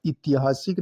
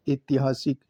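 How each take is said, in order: First: ऐतिहासिक with i as first sound; wrong form. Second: ऐतिहासिक with e as first sound; correct form. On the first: Teacher repeating the error: ऐतिहासिक as "itihasik". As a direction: open ऐतिहासिक on short i. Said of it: "नहीं". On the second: Teacher repeating the correction: ऐतिहासिक as "etihasik". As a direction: open ऐतिहासिक on e. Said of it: "ए आएगा". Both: Shown as a demonstration.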